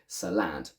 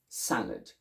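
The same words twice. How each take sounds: First: The stress is on the second syllable. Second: The stress is on the first syllable. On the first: "If the second one were stressed, we would say salad, putting more stress on that one" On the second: "the first one is the stressed one, so that's where we concentrate all the energy"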